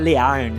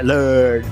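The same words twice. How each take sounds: First: The vowel is replaced by another full vowel. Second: The vowel is a central 'er' sound. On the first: The speaker calls it wrong. "Aprender não é learn" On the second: The speaker calls it right. "é learn"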